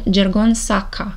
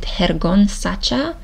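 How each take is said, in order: First: The name is read with a Romanian-style pronunciation. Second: The name is read with a Spanish-style pronunciation. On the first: "if I would read it in Romanian" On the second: "Is it Spanish?"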